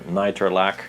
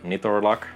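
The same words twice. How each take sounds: First: The name is pronounced without Finnish sounds. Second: The name is pronounced with Finnish sounds. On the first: "or Nitorlak, however you want to pronounce that" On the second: "which is very Finnish way of pronouncing that"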